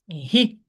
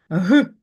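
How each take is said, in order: First: The consonant is soft, palatalized. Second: The consonant is hard, not palatalized. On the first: "буває пом'якшеним" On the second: "Він твердий"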